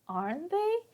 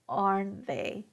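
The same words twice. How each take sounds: First: The pitch rises at the end. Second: The pitch falls at the end. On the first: It asks whether the listener agrees. "Now my pitch goes up" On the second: It is an observation, not a real question. "our intonation is going to go down"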